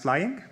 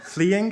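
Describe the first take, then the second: First: "flying" said slowly in place of "fleeing"; fleeing mispronounced. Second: Said in the usual way. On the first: Shown as a demonstration. Student mock-decrees a new pronunciation for consistency, "flying" for fleeing. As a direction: say "flying", first syllable like "fly". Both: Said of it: "shall be pronounced in the following manner".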